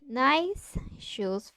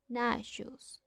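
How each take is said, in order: First: The s is kept separate before the sh. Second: The s blends into the following sh. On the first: "Instead of I need nice shoes for the party" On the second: "we say"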